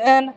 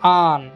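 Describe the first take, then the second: First: The vowel sounds like 'eh' in 'bed'. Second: The vowel sounds like 'ah' in 'father'. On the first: The speaker calls it wrong. "ତାହା ବି ଭୁଲ ଉଚ୍ଚାରଣ ସେ କରନ୍ତି" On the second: The speaker calls it right. "ଏହାର ସଠିକ୍ ଉଚ୍ଚାରଣ ହେଉଛି ଆନ୍"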